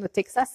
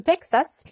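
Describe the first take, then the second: First: Said in the usual way. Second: "Texas" said the Texan way, jumping up high; mock Houston drawl on "Texas"; playful American "Texas", pitched high and falling; Texan accent. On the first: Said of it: "petit clin d'œil pour Marie qui se moque de moi". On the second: Shown as a demonstration. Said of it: "attention avec mon accent de Houston".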